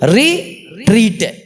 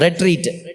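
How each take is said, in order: First: It is said split as re plus treat. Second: It is said as one ordinary word. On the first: Treating oneself again, looking back anew. "RE போட்டு சின்ன ஒரு ஐஃபன் போட்டு TREAT" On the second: Withdrawing for a time of quiet reflection. "ரெட்ரீட்னு ஆங்கிலத்தில் சொல்லுவோம்"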